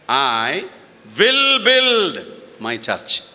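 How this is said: The stress is on will build.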